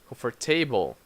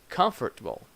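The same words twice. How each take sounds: First: The stress follows a Brazilian Portuguese pattern. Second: The stress follows the English pattern. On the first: The speaker calls it wrong. "we try to put the Brazilian pronunciation, the Brazilian stress in these words" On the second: The speaker calls it right. "In English, we have different stress. So we say"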